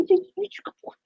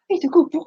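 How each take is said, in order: First: Sing-song, higher and softer, stress on He's; higher dog talk. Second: Fond praise for the dog; sweet talk to a good dog. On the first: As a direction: coo it up high to the dog. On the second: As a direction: coo it to the pet. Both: Real, not acted. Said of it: "I don't talk like that to my dog".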